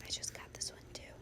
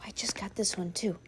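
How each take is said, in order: First: Very soft, quick whisper. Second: Said in the usual way. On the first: Real, not acted. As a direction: drop to a hushed, hurried whisper. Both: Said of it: "Why am I whispering".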